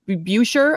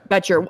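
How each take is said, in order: First: The first vowel sounds like 'oo'. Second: The first vowel sounds like 'eh'. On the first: The speaker calls it wrong. "I was calling him Boucher" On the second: The speaker calls it right. "now we know it's Betcher"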